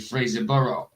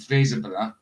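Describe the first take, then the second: First: The name ends in a full two-syllable 'borough'. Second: The name ends in a short, reduced final syllable. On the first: This is how outsiders say it. "They would say Fraserborough, something like that" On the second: This is how locals say it. "where I'm from"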